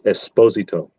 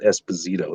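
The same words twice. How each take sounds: First: The name is pronounced the Italian way. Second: The name is pronounced the Spanish way. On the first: The speaker calls it right. "That's the Italian pronunciation" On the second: The speaker calls it wrong. "not Esposito. ... That was the Spanish uh, pronunciation"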